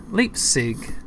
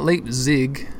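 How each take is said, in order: First: "Leipzig" said LIPE-sig with a crisp s and falling tune; corrected pronunciation. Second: "Leipzig" said slowly as LIPE-zig with a buzzing z; rejected pronunciation. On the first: Driver correcting himself on the city name, crisp s. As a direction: settle on "Leipzig" with a sharp s. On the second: Driver testing how to say the city, slowly with z. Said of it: "Not Leipzig". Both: Shown as a demonstration.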